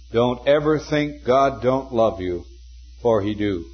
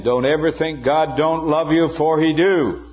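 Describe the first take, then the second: First: Earnest. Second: Raised, louder, emphatic earnest appeal; intense earnestness. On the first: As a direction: say it simply and earnestly, pausing before the end. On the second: Preacher quoting Moody saying it again to the students, intensely earnest. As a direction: drive it home in one insistent, high-pitched run. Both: Retold or imitated. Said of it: "The intense earnestness of this man".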